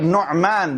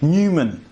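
First: The name is said in its original Arabic way. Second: The name is said in an anglicized way. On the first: The speaker calls it right. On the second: The speaker calls it wrong.

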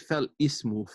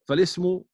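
First: A separate break comes before "ismu". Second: The words run together with no break. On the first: The speaker calls it wrong. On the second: The speaker calls it right.

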